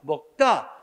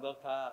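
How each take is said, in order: First: The second consonant is tense and forceful. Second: The second consonant is soft and plain. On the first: "근데 힘을 들이면 어떻게 해? 먹다가 되죠" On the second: "힘없이 말하면 먹다"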